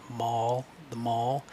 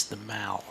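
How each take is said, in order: First: MALL with an open "aw" vowel; American pronunciation. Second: MALL with a short "a", as in "pal"; English pronunciation. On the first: Teacher showing how Americans might say it, American pronunciation. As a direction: say MALL to rhyme with "hall". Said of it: "in America they might say". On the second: Teacher showing how England names the palace road, English pronunciation. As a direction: say MALL to rhyme with "shall". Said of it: "that's not how they say it in England". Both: Shown as a demonstration.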